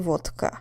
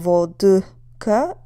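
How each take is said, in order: First: The middle consonant is a voiceless t. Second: The middle consonant is a voiced d. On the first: The speaker calls it right. "start sounding more like a t" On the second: The speaker calls it wrong. "instead of vodka"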